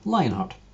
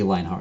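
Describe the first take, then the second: First: The voice is at its usual pitch. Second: The voice is lower and deeper. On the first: "Say the word Lionheart normally" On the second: "lower the back of your tongue"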